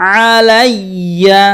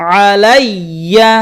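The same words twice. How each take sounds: Both takes have the same delivery.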